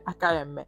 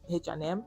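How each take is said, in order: First: The letters are said the Italian way. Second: The letters are said the English way.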